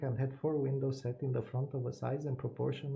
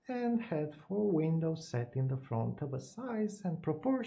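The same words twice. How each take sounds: First: It is read in a flat, even voice. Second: It is read with marked volume and pitch changes. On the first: "It sounds extremely boring" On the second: "high volume, but uh, basically very deep voice"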